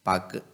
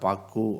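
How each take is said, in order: First: The final u is cut short to half length. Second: The final u is held at full length. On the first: The speaker calls it right. "ஃபுல்லாக சொல்லாமல் அரை மாத்திரை அளவுக்கு மட்டும் ஒழிச்சிட்றோம்" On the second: The speaker calls it wrong. "அந்த பாக்கு அப்படின்னு நம்ம சொல்ல மாட்டேங்கிறோம்"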